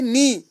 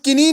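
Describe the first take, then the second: First: The word starts with an n sound. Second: The word starts with a k sound. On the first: The speaker calls it right. "के यहाँ silent रहता है" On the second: The speaker calls it wrong. "हम किनी नहीं पढ़ते हैं"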